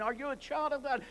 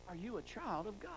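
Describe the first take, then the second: First: Put-on higher, louder repeat with "child" punched; pressing the question. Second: Said in the usual way. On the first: Shown as a demonstration. Preacher repeats the question to the congregation, stressing "child". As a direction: lean on "child" in "are you a child of God?". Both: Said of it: "Spiritually speaking".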